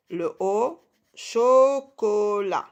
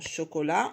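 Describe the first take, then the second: First: CHOCOLAT very slow, each syllable drawn out. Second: Said in the usual way. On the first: Shown as a demonstration. Teacher showing two O syllables, syllable by syllable. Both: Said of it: "les deux premières syllabes".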